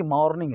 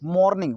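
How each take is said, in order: First: "मॉर्निंग" with an open 'maw'; correct pronunciation. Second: "मॉर्निंग" with a round closed 'mo', MOHR-ning; regional mispronunciation. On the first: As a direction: say "मॉर्निंग" as MAWR-ning, lips apart. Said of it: "मो नहीं है बल्कि". ("मॉर्निंग" में खुला 'मॉ', 'मो' नहीं) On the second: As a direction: say "मॉर्निंग" as Haryana-Delhi speakers do, MOHR-ning. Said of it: "मो नहीं है". ("मॉर्निंग" को 'मोर्निंग' बोलें, गोल 'ओ') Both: Shown as a demonstration.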